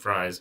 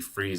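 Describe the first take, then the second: First: The vowel sounds like the one in 'eye'. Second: The vowel sounds like the one in 'see'. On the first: "by saying Fries" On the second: "It might be Freeze"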